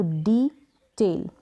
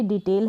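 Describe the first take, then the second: First: डिटेल very slowly, as डी, then टेल; long "dee" in डिटेल, then a separate "tail"; syllable by syllable. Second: Said in the usual way. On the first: Shown as a demonstration. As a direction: split डिटेल into two drawn-out parts. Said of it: "ई को हमने ई pronounce किया". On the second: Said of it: "जिस तरीके से हम इसको बोलते हैं".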